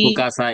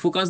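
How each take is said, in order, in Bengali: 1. শব্দটির পরে একটি বাড়তি স্বরধ্বনি যোগ করা হয়। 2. শব্দটি কোনো স্বরধ্বনি যোগ না করেই পরিষ্কারভাবে শেষ হয়। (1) "এটার পরে এ কেন বলতেছেন" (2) "আপনি শুধু ফোকাস বলেন"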